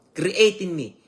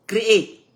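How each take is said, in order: First: Said in the usual way. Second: Create punched higher and louder; stress on Create. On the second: Shown as a demonstration. Preacher driving home God's power to renew, stressing Create. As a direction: hit the word Create hard.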